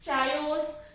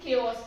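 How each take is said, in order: First: The word begins with a ch sound. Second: The word begins with a k sound. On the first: The speaker calls it wrong. "चायोस या फिर कुछ और नहीं pronounce करते" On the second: The speaker calls it right. "इसका correct pronunciation है केओस"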